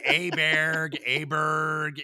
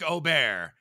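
First: The surname starts with a plain 'ah' vowel. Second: The surname starts with an 'oh' vowel. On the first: The speaker calls it wrong. "Because it's been Aberg" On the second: The speaker calls it right. "I like that you got Ludwig's pronunciation right"

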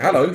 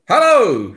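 First: It is said quietly. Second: It is said loudly.

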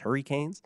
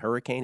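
First: It uses a Cape Breton Canadian pronunciation. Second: It uses a standard North American pronunciation. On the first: "He says hurricanes" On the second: "He didn't say hurricane"

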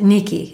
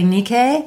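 First: The name is said the modern Greek way. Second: The name is said the classical Greek way. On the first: This is how people in Greece today say it. "if you ask somebody who lives in Greece, modern Greece, they pronounce it Nike" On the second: This is how scholars of ancient Greek say it. "If you ask a Greek scholar of classical Greek, they'll say Nike"

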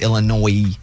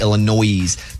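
First: The word ends without an S sound. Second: The word ends with an S sound. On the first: The speaker calls it right. "there's no S. So it's Illinois" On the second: The speaker calls it wrong. "not Illinois"

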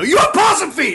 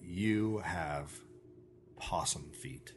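First: It is screamed loudly. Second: It is said quietly and slowly.

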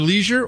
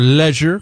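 First: It is said with an American pronunciation. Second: It is said with a British pronunciation.

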